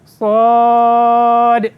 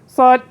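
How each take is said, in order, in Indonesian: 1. Vokalnya dibaca panjang. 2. Vokalnya dibaca pendek dan cepat. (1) "Kena cukup enam harakat" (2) "Macam pendek"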